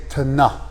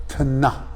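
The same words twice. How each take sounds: Both takes have the same delivery.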